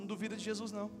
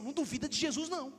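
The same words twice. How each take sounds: First: It is said in a plain, ordinary tone. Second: It is said firmly, with strong conviction.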